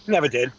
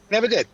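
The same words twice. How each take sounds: First: Said in the usual way. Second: "Never did" said higher and punchier, stress on "Never"; emphatic repeat. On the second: Real, not acted. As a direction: hit "Never" hard the second time.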